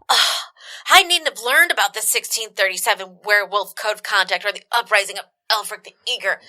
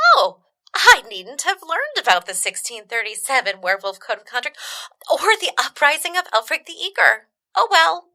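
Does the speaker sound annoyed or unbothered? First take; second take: annoyed; unbothered. First: It sounds annoyed and regretful, like Ron. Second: It sounds light and unbothered, like Hermione.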